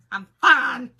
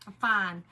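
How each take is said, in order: First: Loud, strained "I'm fine"; mock insistent shout. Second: Said in the usual way. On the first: Insisting to the neighbor she's fine, loudly. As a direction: yell "fine" like she's clearly not fine.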